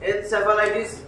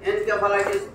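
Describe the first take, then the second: First: The middle consonant is a soft s sound. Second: The middle consonant is a hard k sound. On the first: "এক একজন এক একটা উচ্চারণ করে" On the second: "এক একজন এক একটা উচ্চারণ করে"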